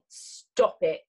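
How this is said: It is said in a firm, warning way. The speaker is threatening consequences if the listener continues. "Or I warn you firmly"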